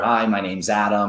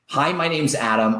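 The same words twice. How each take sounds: First: It is said flatly, without energy. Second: It is said warmly, with great energy.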